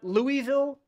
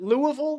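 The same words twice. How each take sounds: First: It is said in full with a clear ville. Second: It is reduced to sound like Lou-a-vul. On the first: The speaker calls it wrong. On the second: The speaker calls it right.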